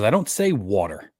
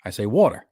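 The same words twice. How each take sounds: First: "water" with an open ah vowel; practised standard "water". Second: "water" as wawter, rounded aw vowel; New York "water". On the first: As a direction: say "water" neatly, no New York accent. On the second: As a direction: lean into New York "water": WAW-ter. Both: Shown as a demonstration. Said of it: "I don't say water normally".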